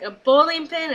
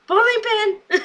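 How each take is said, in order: First: Said in the usual way. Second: BOWLING PIN exclaimed very high; high-pitched imitated outburst; indignant mock shout. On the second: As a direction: echo the insult in a high, hammed-up cry. [name]'s outraged echo of the insult.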